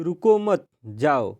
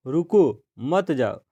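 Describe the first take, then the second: First: Slow reading, रुको मत joined, a break, then जाओ; pause after मत. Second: Slow reading, रुको falls and stands alone, then मत जाओ together; pause after रुको. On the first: Teacher moving the punctuation mark in the sentence, pause after मत. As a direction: run रुको into मत, stop, then give जाओ alone. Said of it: "मत की जगह हम विराम चिन्ह प्रयोग कर दे". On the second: Teacher reading out the first example sentence, pause after रुको. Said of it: "फिर विराम चिन्ह". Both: Shown as a demonstration.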